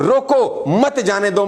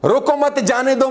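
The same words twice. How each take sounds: First: High "रोको" set apart, then "मत जाने दो" together; pause after रोको. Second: High "रोको मत" grouped, then "जाने दो"; pause after मत. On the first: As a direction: break after "रोको", meaning hold them back. ("रोको" पर रुकें, "मत जाने दो" साथ) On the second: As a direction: keep "मत" with "रोको", meaning let go. ("रोको मत" एक साथ, फिर "जाने दो") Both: Shown as a demonstration. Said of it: "कहाँ आपने रुकना है".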